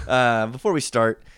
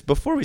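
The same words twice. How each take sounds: First: Said in the usual way. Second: A crack in the voice. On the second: Real, not acted. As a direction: voice cracks on the words. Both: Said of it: "my voice cracked a little bit there".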